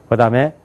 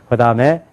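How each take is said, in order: No difference in how they are said.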